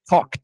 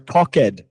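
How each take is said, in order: First: The ending adds no extra syllable. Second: The ending is said as an extra syllable. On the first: The speaker calls it right. "if you ignore the E, it'll sound much more natural" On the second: The speaker calls it wrong. "Since we learn to read every single syllable in Portuguese, sometimes I'll hear"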